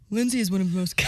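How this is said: It is said in a put-on deep man's voice. "Do you want me to do my man voice?"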